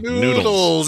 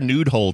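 First: The word sounds like plain 'noodles'. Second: The word sounds like 'nude hole'. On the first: The speaker calls it right. "Noodles. Not nude hole" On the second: The speaker calls it wrong. "I said it wrong"

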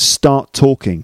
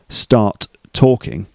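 First: The two t sounds merge into one. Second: Both t sounds are pronounced separately. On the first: The speaker calls it right. "There's only one t sound in the middle" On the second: The speaker calls it wrong. "not start talking"

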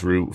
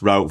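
First: It is said with an English accent. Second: It is said with an American accent.

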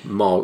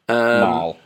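First: The vowel sounds like the one in 'Molly'. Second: The vowel sounds like the one in 'malady'. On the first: The speaker calls it wrong. "I thought she was called Moll. Like Molly" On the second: The speaker calls it right. "But it's Mal, ... from like malady"

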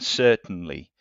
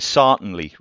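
First: It is said with a standard 'er' vowel. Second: It is said with a Northumbrian 'ar' vowel.

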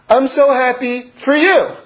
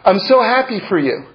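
First: The stress falls on for you. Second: The stress falls on happy, said warmly.

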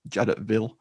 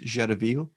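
First: The name is pronounced in an anglicized way. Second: The name is pronounced the French way. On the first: "the radio op in the film has a great pronunciation of it" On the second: "if you're pronouncing it the French or Belgian way"

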